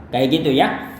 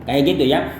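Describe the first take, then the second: The two takes are said the same way.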